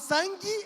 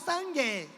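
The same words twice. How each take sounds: First: The final vowel sounds like 'i'. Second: The final vowel sounds like a clear 'e'. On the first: "esse E tem som de I" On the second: "ela iria pronunciar sangue"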